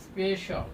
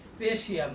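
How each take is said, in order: First: The ending is said as 'shal'. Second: The ending is said as 'shee-al'. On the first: The speaker calls it right. "এটার উচ্চারণ হবে স্পেশাল" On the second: The speaker calls it wrong. "স্পেশিয়াল না"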